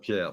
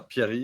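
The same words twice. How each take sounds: First: "Pierre" said alone, French pyehr, no second part; "Pierre" cut short, one name only, French vowel; wrong name. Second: "Pierre-Yves" joined, pyehr then a clear EEV; correct full name. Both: Shown as a demonstration. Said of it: "Not, not Pierre".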